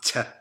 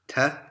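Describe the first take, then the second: First: The t has a whistling, hissing release. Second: The t is dry with no hissing air. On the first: The speaker calls it wrong. "must not be pronounced t with a whistling" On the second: The speaker calls it right. "You're supposed to pronounce it dry"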